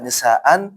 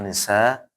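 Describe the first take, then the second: First: The word ends with an added n sound. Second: The word ends with a lengthened vowel. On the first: The speaker calls it wrong. "enggak boleh dibaca nisaan" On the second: The speaker calls it right. "Maka dibaca uh, dua harokat"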